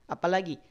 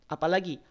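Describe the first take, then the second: The two takes are said the same way.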